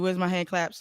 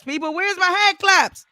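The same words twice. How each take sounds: First: Said in the usual way. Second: Demanding applause. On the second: Real, not acted.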